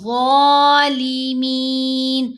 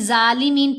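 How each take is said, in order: First: The first sound is a heavy, thick z. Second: The first sound is a light, plain z. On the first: The speaker calls it right. "वा को हम मोटा पढ़ेंगे" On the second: The speaker calls it wrong. "तो फिर वो गलत है"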